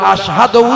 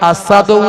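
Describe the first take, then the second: First: The word is said with a clear 'sh' sound. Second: The word is said with a plain 's' sound. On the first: The speaker calls it right. "আমার আশহাদু উচ্চারণ হয় না" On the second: The speaker calls it wrong. "আসাদু উচ্চারণ হয়"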